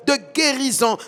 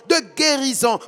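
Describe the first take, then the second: No difference in how they are said.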